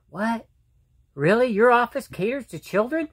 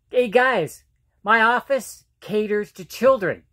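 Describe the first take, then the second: First: Surprised. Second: Said in the usual way. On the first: Retold or imitated. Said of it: "And they're like". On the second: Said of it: "I tell people".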